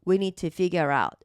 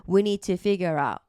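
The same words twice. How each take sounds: The two takes are said the same way.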